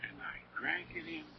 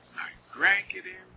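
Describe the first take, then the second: First: A hushed, faster whisper of the repeat. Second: Said in the usual way. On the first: Shown as a demonstration. Preacher reliving his wonder to the flock, whispered. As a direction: breathe it out as if still savoring.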